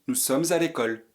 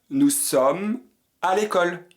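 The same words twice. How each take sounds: First: The verb's final sound links into the next word. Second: The verb and the next word are said separately. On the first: This is a very formal way to say it. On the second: This is the ordinary way to say it.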